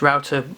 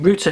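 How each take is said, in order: First: The word is said with an American accent. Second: The word is said with a British accent. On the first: "any American listeners, I know it's router, uh, you pronounce it" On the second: "router in the U K"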